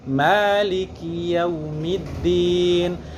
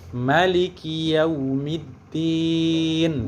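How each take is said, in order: First: The first vowel of Maliki is long. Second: The first vowel of Maliki is short. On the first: This follows the other school's reading. "bacaan kita di Imam Asim itu" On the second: This follows one school's reading. "tidak dibaca panjang tapi dibaca pendek"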